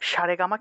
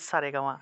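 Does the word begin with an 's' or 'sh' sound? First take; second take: sh; s. First: The word begins with an sh sound. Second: The word begins with an s sound. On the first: The speaker calls it wrong. "সারেগামা কিন্তু আমরা বলি না" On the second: The speaker calls it right. "আমরা বলি সারেগামা"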